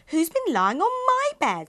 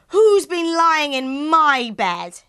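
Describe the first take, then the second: First: It is said in a medium-sized voice. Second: It is said in a very loud voice.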